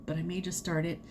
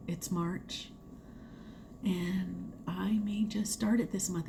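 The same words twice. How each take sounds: First: Said in the usual way. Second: Whispered like a guilty secret. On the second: Real, not acted. Vlogger whispers her plan to viewers, whisper. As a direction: breathe it out, no voice, a naughty confession.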